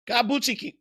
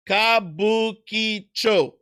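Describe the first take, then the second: First: Kabuchiki- rushed and broken off; fast slip. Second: Kabukicho drawn out slowly, each syllable clear; slow careful Kabukicho. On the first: Proving he can't say it fast, Kabuchiki- breaks off. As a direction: speed up and stumble on Kabuchiki-. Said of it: "I can't say it fast". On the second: Showing viewers he can say it slow, Kabukicho drawn out. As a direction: stretch Kabukicho out, ka-bu-ki-cho. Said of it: "I can say it slow". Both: Shown as a demonstration.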